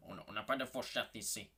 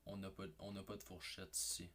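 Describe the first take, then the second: First: A light put-on voice for the waiter's line; mock waiter voice, lightly done; imitating the Chinese waiter. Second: Said in the usual way. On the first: Shown as a demonstration. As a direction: show how the waiter said it. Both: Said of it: "Mais d'une façon de même".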